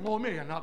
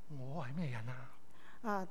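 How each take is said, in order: First: It is said in a defiant, challenging tone. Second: It is said in a humble, self-doubting tone. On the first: The speaker is challenging the request. The speaker calls it wrong. "但呢个语气唔系话，嘿，我咩人啊？咁啊，唔系咁。" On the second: The speaker feels unworthy of the task. The speaker calls it right. "真系谦卑啊！"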